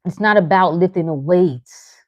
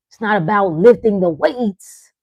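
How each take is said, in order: First: "not" hit hardest and falling; stress on not. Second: "lifting" hit hardest and falling; stress on lifting. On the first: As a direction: lean on "not" in "It's not about lifting the weights". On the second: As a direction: lean on "lifting" in "It's not about lifting the weights". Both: Shown as a demonstration.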